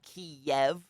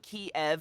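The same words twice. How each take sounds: First: The word has a 'yeh' sound in it. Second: The word has no 'yeh' sound in it. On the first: This is the Russian pronunciation. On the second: This is the Ukrainian pronunciation.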